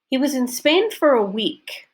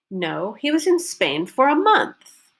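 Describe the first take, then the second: First: "Spain" lifted high and long; first statement with "Spain" stressed. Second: "month" lifted and falling, as a correction; correcting the teacher, stress on "month". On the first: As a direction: punch "Spain". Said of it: "Focus rule six". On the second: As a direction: hit "month" hard. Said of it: "Month is the new focus word". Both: Shown as a demonstration.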